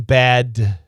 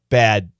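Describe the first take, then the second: First: The final d is fully released. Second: The final d is stopped, not released. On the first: "Perfect pronunciation" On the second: "We say bad"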